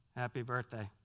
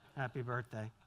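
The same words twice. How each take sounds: Both takes have the same delivery.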